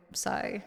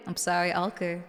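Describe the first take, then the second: First: Sorry in a soft whisper. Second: Said in the usual way. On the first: Real, not acted. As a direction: whisper the apology.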